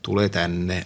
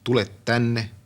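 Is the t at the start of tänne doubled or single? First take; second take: single; doubled. First: The t of tänne is short after tule. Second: The t of tänne is lengthened after tule. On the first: This is the regional dialect form. "Karjalan Kannaksen murteessa se puuttuu. Siellä sanotaan" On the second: This is standard spoken Finnish. "Suomen yleiskielessähän on tämä loppukahdennus"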